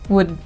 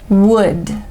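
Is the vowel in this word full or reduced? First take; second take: reduced; full. First: The word is said with a reduced vowel. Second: The word is said with a full vowel.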